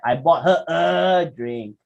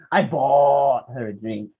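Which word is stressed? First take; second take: a; bought. First: The stress falls on the word a. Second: The stress falls on the word bought. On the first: Only one drink was bought. "how many drinks did you buy?" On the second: The drink was paid for, not obtained another way. "how did you get the drink?"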